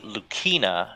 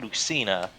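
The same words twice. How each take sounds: First: The name is said following its Japanese reading. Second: The name is said the usual English way. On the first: The speaker calls it right. "in like the the pronunciation from the Japanese letters. It seems like it her name would be Lucina" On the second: The speaker calls it wrong. "not Lucina"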